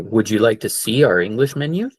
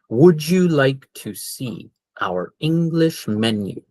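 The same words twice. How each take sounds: First: It is said at a normal, quick pace. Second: It is said slowly and carefully.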